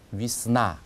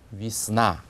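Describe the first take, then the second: First: The first vowel sounds like 'i'. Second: The same.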